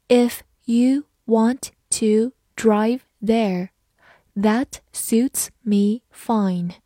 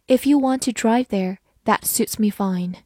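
First: Very slow, word by word; spaced-out, careful model reading with gaps between words. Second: Said in the usual way. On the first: Shown as a demonstration. Teacher reads the example once for learners, slowly. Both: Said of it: "好，慢读一遍".

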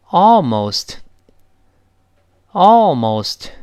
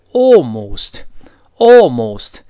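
First: American ALMOST with open "ah"; slow American long open vowel; American pronunciation. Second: British ALMOST with long pouted "aw"; loud, drawn-out British rounded vowel; British pronunciation. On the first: Teacher asking class to read aloud, American almost. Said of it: "所以我们大声读一下". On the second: Teacher contrasting accents, British pouted almost. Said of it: "英式发音前面说哦，". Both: Shown as a demonstration.

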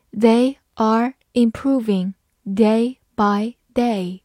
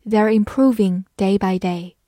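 First: Slow, each word apart; slow reading. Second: Said in the usual way. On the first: Shown as a demonstration. Teacher reading slowly for students to follow. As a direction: read it slowly for learners. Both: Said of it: "好，慢慢来读".

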